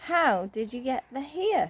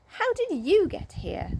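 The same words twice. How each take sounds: First: Said in the usual way. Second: Higher excited question; excited cry. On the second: A narrator's reading. Sisters crying out to Joe, higher. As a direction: cry it out in delight. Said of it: "cried Beth and Franny".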